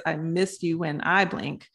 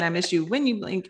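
First: Slow, with the "I" in "when I blink" marked as the correction; slow the title down and lean on "I"; stress on I. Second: Said in the usual way. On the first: Real, not acted. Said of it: "It's I miss you when I blink". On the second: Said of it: "I'm saying".

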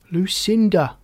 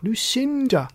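First: Raised, louder call of LUCINDA; first attempt to get attention. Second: Higher, more insistent LUCINDA; insistent second attempt to get attention; repeated call. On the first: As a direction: call "Lucinda" across a crowd. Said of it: "called Frog". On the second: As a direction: call "Lucinda" high, stretching the middle. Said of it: "he tried again". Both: A narrator's reading.

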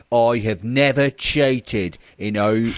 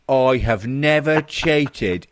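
First: NEVER leaned on, slow and loud; hammed-up protest, stretching "never"; dragging "I have never cheated" out in mock sincerity; mock earnest denial. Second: Even slower, NEVER stretched and loud through a laugh; "I have never cheated" drawn out, breaking into laughter; mock earnest denial, laughing. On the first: Reading denial with mock emphasis. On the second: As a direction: ham up "never" while cracking up.

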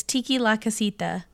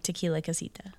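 First: TIKI LA with a clear TEE-kee, then LA; menu pronunciation. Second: TEQUILA as one word, tuh-KEE-luh; usual tequila pronunciation. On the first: Co-host clarifying the drink's name, TIKI LA said as two words. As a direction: split Tequila into Tiki La. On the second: Explaining the pun in the drink's name, TEQUILA as one ordinary word. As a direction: quickly run Tequila into Casita. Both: Shown as a demonstration. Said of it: "which is like Tequila Casita".

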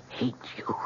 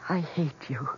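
First: Breathy hushed whisper. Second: Said in the usual way. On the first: Retold or imitated. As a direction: hiss it under the breath. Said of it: "but I said it again". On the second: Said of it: "I said".

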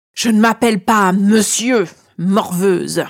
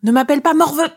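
First: Booming, cavernous dragon interruption. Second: High-pitched, indignant sidekick retort; retorting shadow. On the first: Dragon cutting off the flattering girl, cavernous voice. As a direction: cut in like an affronted dragon, cavernous. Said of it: "me coupe-t-il d'une voix caverneuse". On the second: Shadow answering back to the dragon, high indignant retort. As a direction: snap back high and offended. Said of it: "essaie de rétorquer mon ombre". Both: A narrator's reading.

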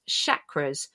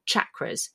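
First: "chakras" begun with SH, as in "shack"; first sound of "chakras" is a soft SH; soft SH pronunciation. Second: "chakras" begun with CH, as in "chocolate"; first sound of "chakras" is a CH; hard CH pronunciation. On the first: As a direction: say "chakras" as SHAK-ruhz. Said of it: "Never quite sure how to pronounce it". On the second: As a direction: say "chakras" as CHAK-ruhz. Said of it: "decided that if it's chocolate". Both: Shown as a demonstration.

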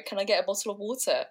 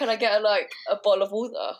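First: "water" with the T clearly sounded; quick request, crisp T in "water"; T pronounced. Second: "water" with a glottal stop for the T; South London "water", the T swallowed; dropped T. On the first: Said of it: "Oh, sorry". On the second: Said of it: "they drop the T". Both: Retold or imitated.

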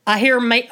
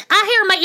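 First: Said in the usual way. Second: Imitating dad, pitched higher. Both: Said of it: "I feel like his voice is, like, higher".

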